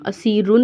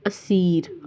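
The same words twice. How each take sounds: First: असीरुन with "un" added after the r; wrong "un" ending. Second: असीर ending on a plain r, no "un"; simple stop ending. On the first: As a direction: finish असीरुन on a full -run. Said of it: "असीरुन नहीं पढ़ना". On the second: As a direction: stop on the r of असीर after a long ee. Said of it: "simple पढ़ना होता है". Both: Shown as a demonstration.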